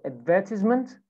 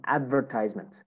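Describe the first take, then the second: First: British "advertisement", stressed on "VER"; British accent. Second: American "advertisement", "tise" rhyming with "size"; American accent. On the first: Teacher models British "advertisement" for students, stress on second syllable. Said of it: "British accent". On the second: Teacher models American "advertisement" for students, long I in "tise". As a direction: say "advertisement" as American "AD-ver-tize-ment". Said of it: "American accent". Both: Shown as a demonstration.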